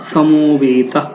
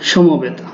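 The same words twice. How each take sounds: First: It is said with a dental s sound. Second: It is said with Bengali sounds. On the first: "সংস্কৃত উচ্চারণটা একটু দেখি সমবেতা দন্তস্ব স হয়ে যাবে" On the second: "এটা বাংলা"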